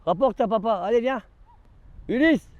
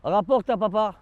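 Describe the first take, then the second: First: Raised coaxing dog call; higher singing call to the pet. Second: High sing-song call to the dog. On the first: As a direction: urge the dog over, pitched up. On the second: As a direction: coax the dog to bring it back. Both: Real, not acted. Calling the dog to fetch.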